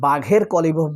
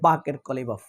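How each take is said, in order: First: The first name has a breathy 'gh' sound. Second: The first name has a plain 'k' sound. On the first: This is how many people say it. "এই উচ্চারণটা অনেকে বাঘের Qalibaf বলে" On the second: This is the Bangladeshi pronunciation. "আসলে বাংলাদেশের উচ্চারণ হয় বাকের Qalibaf"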